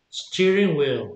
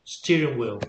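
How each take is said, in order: First: Steering stressed, wheel lighter, said slowly; stress on first word. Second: Said in the usual way. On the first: Shown as a demonstration. Teacher shows first-word stress to student. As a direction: lean on Steering, let wheel drop. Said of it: "el acento lo lleva en la primera". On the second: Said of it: "repeats the example".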